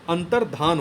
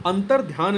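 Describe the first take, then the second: First: अंतर्धान ending "dhaan", no y; correct form. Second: अंतर ध्यान with a "dhyaan" glide; wrong form. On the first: Teacher corrects the spelling, अंतर्धान with plain "dhaan". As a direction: drop the glide in अंतर्धान. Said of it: "होता है". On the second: Teacher rejects the misspelling, अंतर ध्यान with "dhyaan". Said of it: "नहीं होता है". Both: Shown as a demonstration.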